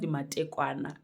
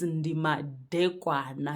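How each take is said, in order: First: The second word has a t sound. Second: The second word has a d sound. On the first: The speaker calls it wrong. "It's not ndi matekwana" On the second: The speaker calls it right. "It's ndi madekwana"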